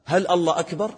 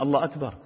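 First: "الله أكبر" rising as a question; questioning tune up on "أكبر". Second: Said in the usual way. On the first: Shown as a demonstration. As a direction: ask "هل الله أكبر؟" with a higher lift. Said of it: "أنت تسأل".

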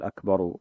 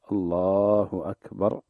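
First: "أكبر" with a short u added after the ر, akbaru; "أكبر" said ending in an added u vowel; wrong vowelled ending. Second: "الله أكبر" with the final ر of أكبر stopped dead, no vowel, slow; "أكبر" ends on a silent ر, drawn out; pausal form. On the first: Sheikh showing the mistaken ending, vowelling the final ر. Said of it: "ما يقول". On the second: Sheikh demonstrating the correct call to prayer, slow and careful. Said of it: "أكبر يقف بس بتسكين الراء". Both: Shown as a demonstration.

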